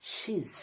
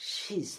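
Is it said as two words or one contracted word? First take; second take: contracted; contracted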